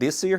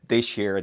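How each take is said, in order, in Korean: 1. s와 y 소리는 따로 유지됩니다. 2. s와 y는 합쳐져서 sh 소리가 됩니다. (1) "this year 하면 자칫 이 귀라는 어감으로 들릴 가능성이 있죠" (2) "she라는 발음으로 그냥 변형시키는 것이 훨씬 더 편합니다"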